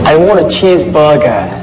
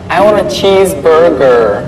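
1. Bunyi r dalam cheeseburger dihilangkan. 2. Bunyi r dalam cheeseburger diucapkan.

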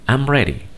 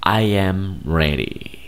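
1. I y am se unen en una sola sílaba. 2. Las palabras I y am se dicen por separado.

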